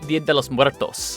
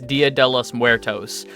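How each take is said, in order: First: It is said with a Spanish accent. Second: It is said with an American accent.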